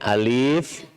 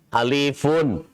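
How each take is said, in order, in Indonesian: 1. Kata ini berakhir polos, tanpa bunyi '-un'. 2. Kata ini berakhir dengan bunyi '-un' yang ditambahkan. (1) "Tapi bacanya di, di, diwakafkan di sini" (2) "kalau dibedah tulisannya gini"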